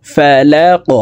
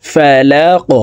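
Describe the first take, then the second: First: ফালাক with an echoing bounced q at the end; qalqala. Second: Said in the usual way. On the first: Shown as a demonstration. Teacher demonstrating the qalqala on ফালাক. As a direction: bounce the final q of ফালাক upward. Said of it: "উপরের দিকে ধাবিত করে ধাক্কা দিয়ে". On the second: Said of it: "কফকে ওয়াকফের ক্ষেত্রে সাকিন করে ফেলবো".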